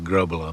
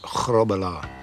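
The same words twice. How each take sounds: First: The name has a plain English G and R. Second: The name has a throaty G and rolled R. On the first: This is the form used in Britain. The speaker calls it wrong. "it's easier for the English pronunciation" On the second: This is the original form of the name. The speaker calls it right. "Get the, the back of the throat going and roll the R's for the, the Dutch way of doing it"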